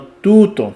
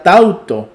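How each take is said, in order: First: Tuto slowly, falling; correct form. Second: Tauto marked as the one to avoid; tauto, half-stressed; wrong form. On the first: Teacher correcting to tuto, slow and falling. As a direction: tuto stated firmly. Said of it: "sino tuto". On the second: Teacher to class, tauto flagged as wrong. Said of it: "no sería tauto". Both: Shown as a demonstration.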